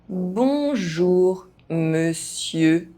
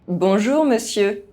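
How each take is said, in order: First: The phrase is spoken at normal pace. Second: The phrase is spoken fast. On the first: This is the recommended way for learners to say it. "at a normal pace" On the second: This is how native speakers say it. "fast, as a native speaker would do"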